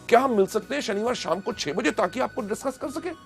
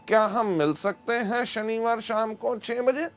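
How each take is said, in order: First: It is said with lively excitement. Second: It is said flatly, without excitement.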